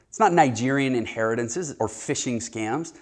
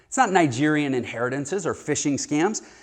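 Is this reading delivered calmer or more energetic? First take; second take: calmer; energetic. First: It is read with plainer, lower energy. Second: It is read with heightened, stronger energy.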